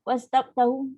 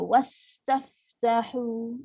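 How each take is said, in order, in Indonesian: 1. Konsonan berhembus itu dibaca pendek dan cepat. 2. Konsonan berhembus itu diberi waktu untuk terdengar. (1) "Adakah kita baca wastaftahu wastaftahu? ... kalau betul kita baca macam tu, tolong repair" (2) "Bagi masa ... barulah betul tempat dia"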